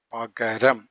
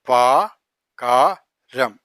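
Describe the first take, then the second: First: Said in the usual way. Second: പകരം stretched very slowly; drawn out. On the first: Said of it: "normal after demo". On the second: Shown as a demonstration. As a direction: hold each sound of പകരം. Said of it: "slow syllable demo".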